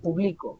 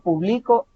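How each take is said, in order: First: The stress is on the middle syllable. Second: The stress is on the last syllable. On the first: It is an action in the present. "la mayor fuerza vocal se identifica a mitad" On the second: It is an action in the past. "con un acento en la O hasta el final"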